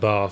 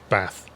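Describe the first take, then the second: First: The vowel in the word is long. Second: The vowel in the word is short. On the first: "rather than bath" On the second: "the shorter vowel, like bath"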